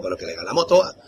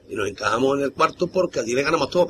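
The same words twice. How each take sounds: First: "todas" pushed higher and louder; stress on todas. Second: Said in the usual way. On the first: Real, not acted. Insisting to the interviewer they beat everyone, stressing "todas". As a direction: lean hard on "todas".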